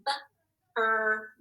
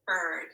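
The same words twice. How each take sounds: First: "bird" split into separate sounds, b, ir, d; segmented phonics demo of "bird"; sounded out. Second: Said in the usual way. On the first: Shown as a demonstration. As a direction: tap out each sound of "bird" with gaps. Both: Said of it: "Here we go, tappers up".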